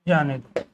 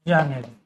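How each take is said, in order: The two takes are said the same way.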